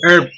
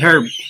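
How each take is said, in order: First: The word starts with a vowel, no h sound. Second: The word starts with an audible h sound. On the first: The speaker calls it right. "kapag sinabing H-E-R-B, herb" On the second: The speaker calls it wrong. "hindi herb"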